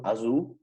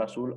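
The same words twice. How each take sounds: First: "azul" with buzzing z, ending in -u; Portuguese pronunciation. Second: Said in the usual way. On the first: Shown as a demonstration. ("azul" a la portuguesa, con z sonora y final en "u") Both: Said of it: "o sea, el color azul".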